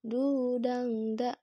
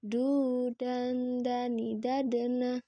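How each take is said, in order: First: "du, dang, da" dengan n berubah jadi ng; contoh salah. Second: "dan" dengan n ditahan di ujung lidah; contoh benar. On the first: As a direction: lantunkan keliru "dang" dengan dengung di pangkal lidah. (bunyi ng keliru pada "dang") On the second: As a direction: lantunkan "du, dan, dani, dadana" dengan n jelas. (dengung n ditahan pada "dan") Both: Shown as a demonstration.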